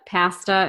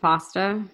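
First: The word is said the Irish way. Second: The word is said the American way. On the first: This is the husband's Dublin usage. "instead of" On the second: This is the usual local usage. "instead of"

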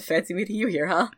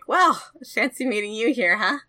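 First: It is said in a lower voice. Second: It is said in a very high voice.

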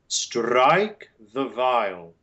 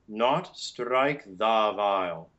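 First: The word 'the' has a weak, reduced vowel. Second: The word 'the' has a full, long vowel. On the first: The speaker calls it right. "with the beautiful neutral schwa" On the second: The speaker calls it wrong.

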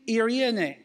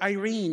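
First: The word is said with a Greek pronunciation. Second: The word is said with an English pronunciation. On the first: "Or in the Greek" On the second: "if you want to say it in English, in an English pronunciation"

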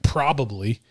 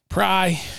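First: The word is said with all its syllables. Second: The word is squeezed into one short syllable. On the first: "full words like probably" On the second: "It's just so much easier probably. To just say pry"

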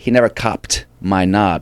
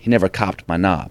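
First: The T in copped is aspirated. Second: The T in copped is unaspirated. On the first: "you'd aspirate the T" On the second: "you can't aspirate a T in that accent"

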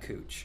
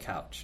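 First: The vowel sounds like 'oo' as in moo. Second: The vowel sounds like 'ow' as in cow. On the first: This is how the locals say the street name. "not cooch" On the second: This is how the spelling suggests it should sound. "To me, it's still couch"

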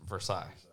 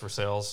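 First: Versailles is said with a French pronunciation. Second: Versailles is said with an anglicized local pronunciation. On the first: This is how the original French name is said. "In real life, it's Versailles" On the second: This is how the local town name is said. "In Western PA, it's North Versailles"

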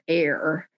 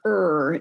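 First: It is said with an American pronunciation. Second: It is said with a British pronunciation.

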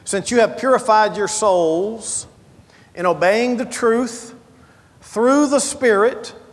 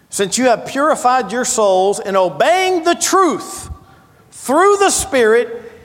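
First: It is read in a plain, calm manner. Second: It is read with more fervent, intense energy.

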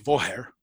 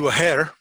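First: The word begins with a V sound. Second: The word begins with a W sound. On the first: This is how it is said in the south. "If you're from the south of Ireland, it'd be a Voher" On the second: This is how it is said in the north. "as they would say in County Ulster"

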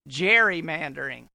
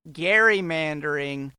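First: The word begins with a J sound. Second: The word begins with a hard G sound. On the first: This is how people say it today. "as we always say today" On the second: This is how it was originally said. "they called it gerrymandering"

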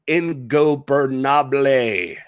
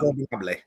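First: The word is said slowly and carefully. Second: The word is said quickly in one go. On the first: The speaker calls it wrong. "I tried to say it slower so I'd get it right" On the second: The speaker calls it right. "you got to say it fast"

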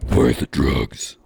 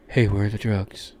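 First: It is said in a gravelly Batman voice. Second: It is said in a smooth, casual voice.

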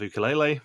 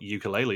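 First: It is pronounced the traditional Hawaiian way. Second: It is pronounced the common everyday way. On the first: "he pronounced it ukulele, which I think is actually the correct way to say it" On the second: "as normal people call it"

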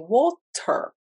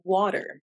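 First: It is said in a non-American accent. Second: It is said in an American accent.

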